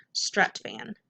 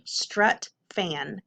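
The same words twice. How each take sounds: First: Said in the usual way. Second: "strut, fan" with a pause between the syllables. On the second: Shown as a demonstration. Teacher reading the whole word to pupils, syllable by syllable. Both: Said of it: "whole word".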